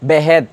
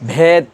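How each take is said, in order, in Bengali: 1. "h" আলাদা একটি সিলেবল হিসেবে উচ্চারিত হয়। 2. "h" "b"-র সাথে একসাথে মহাপ্রাণ হিসেবে উচ্চারিত হয়। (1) "যদি আলাদা হইতো শব্দটা এমন হইতো বেহেদ" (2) "এটা বেহেদ না হয়ে কি হয়েছে ভেদ"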